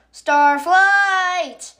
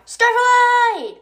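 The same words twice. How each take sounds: First: High, loud shout of Starflight, falling at the end; yelled name. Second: High loud shout of the name Starlight; yelled name. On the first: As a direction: call Starflight urgently, corrected name. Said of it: "she yelled". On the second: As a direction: call Starlight across the hall. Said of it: "oh, I said that wrong". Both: Acted.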